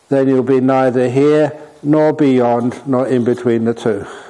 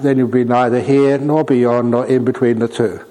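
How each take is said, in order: First: It is said with pauses between phrases. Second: It is said without pauses between phrases.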